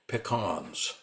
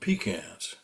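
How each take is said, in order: First: The word does not sound like 'pee can'. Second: The word sounds like 'pee can'. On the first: This is how the speaker's own family says it. "We called them pecans" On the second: This is how other people say it. "They called them pecans. And I thought a pecan is something you use to urinate in the forest"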